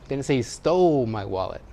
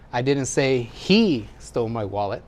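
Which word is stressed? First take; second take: stole; he. First: The word 'stole' carries the main stress. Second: The word 'he' carries the main stress. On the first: The wallet was obtained without stealing. "He borrowed it. He found it" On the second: Someone else took the wallet. "It's not him, somebody else"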